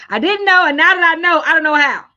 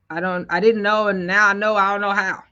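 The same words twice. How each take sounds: First: Louder and higher, hammering each phrase; loud emphatic echo. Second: Said in the usual way. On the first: Retold or imitated. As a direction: echo the viewer's words back loudly with punch. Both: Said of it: "That's what you're saying?".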